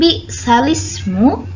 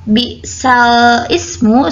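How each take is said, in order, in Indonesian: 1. Vokal berpindah ke belakang dan hamzah dibuang. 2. Hamzah sebelum ismu dilafalkan. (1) "dibaca nakal dengan bacaan bi'salismu" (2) "lafaz bi'sal ismu"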